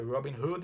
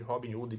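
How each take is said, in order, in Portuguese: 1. É dito com sons do inglês. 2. É dito com sons do português brasileiro. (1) "a pronúncia certa é" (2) "brasileirando mesmo"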